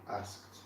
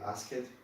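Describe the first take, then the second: First: The ending is pronounced as a single t sound. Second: The ending is pronounced as an extra syllable. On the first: The speaker calls it right. "We would say I asked, like this" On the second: The speaker calls it wrong. "we don't say ask it"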